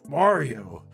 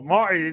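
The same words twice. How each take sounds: First: It is said in a deep voice. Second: It is said in an ordinary voice.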